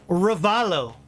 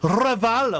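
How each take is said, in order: First: The R at the start is plain, not rolled. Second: The R at the start is rolled. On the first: "who I'm pretty sure is pronounced Ravalo" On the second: "Or is it rolling R?"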